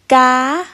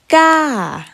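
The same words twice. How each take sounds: First: The pitch is held at a high height. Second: The pitch falls over the syllable. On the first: "High tone" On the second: "Falling tone"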